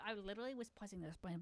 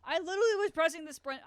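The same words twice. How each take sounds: First: Muttered repeat. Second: Frustrated outburst. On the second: Frustrated complaint. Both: Real, not acted.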